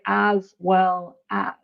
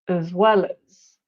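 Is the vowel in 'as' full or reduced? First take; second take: full; reduced. First: The vowel in 'as' is full. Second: The vowel in 'as' is reduced. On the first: The speaker calls it wrong. "we don't say as well as in connected speech" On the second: The speaker calls it right. "It's uh, as"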